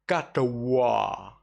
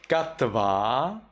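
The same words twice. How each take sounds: First: Katwa with a round W; Burmese W. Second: Katva with a buzzing V; Sri Lankan V. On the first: Teacher showing the Burmese reading, Katwa with W. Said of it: "in Myanmar". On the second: Teacher showing the Sri Lankan reading, Katva with V. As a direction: say Katva, teeth on lip. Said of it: "in Sri Lanka". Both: Shown as a demonstration.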